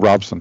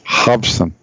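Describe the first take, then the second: First: The name begins with an R sound. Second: The name begins with an H sound. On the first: The speaker calls it wrong. "What are you calling him" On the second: The speaker calls it right. "It sounds like an H in Portuguese"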